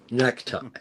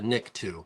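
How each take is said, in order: First: The word sounds like the English word 'necktie'. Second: The word sounds like 'nikto', not like 'necktie'. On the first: This is the common popular way to say it. The speaker calls it wrong. "everybody goes Klaatu Barata necktie" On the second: This is how the original film says it. The speaker calls it right. "the right pronunciation Barata Nikto"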